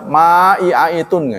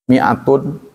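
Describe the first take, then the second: First: The word begins with a long 'ma' sound. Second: The word begins with a short 'mi' sound. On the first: The speaker calls it wrong. "Kan nggak dibaca ma'i'aitun" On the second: The speaker calls it right. "yang artinya seratus, alifnya nggak ada gunanya"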